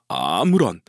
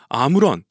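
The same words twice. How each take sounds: First: The word is said with a creaky vocal fry. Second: The word is said in a plain, clear voice. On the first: "보컬 프라이라고 아, 이런 성대 소리가 들어가요" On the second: "아무런 이렇게 한 것이 아니라"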